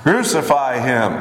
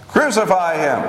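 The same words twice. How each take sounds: First: Restrained, drawn-out crowd cry; understated outcry, words stretched; crowd's cry. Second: Higher-pitched, restrained crowd cry; mild narrated outcry, pitched high; more insistent cry. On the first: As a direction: cry it out slowly without shouting. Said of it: "They all cried out". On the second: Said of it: "They cried out all the louder". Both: A narrator's reading.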